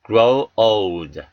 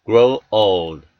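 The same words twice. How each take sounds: The two takes are said the same way.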